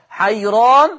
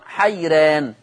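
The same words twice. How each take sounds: First: The r is pronounced heavy and velarized. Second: The r is pronounced light and thin. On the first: "هكذا تقرأ بجواز التفخيم والترقيق" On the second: "هكذا تقرأ بجواز التفخيم والترقيق"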